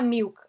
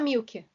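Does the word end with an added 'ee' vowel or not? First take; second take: no; yes. First: It ends cleanly on the k sound. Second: It ends with an added 'ee' vowel.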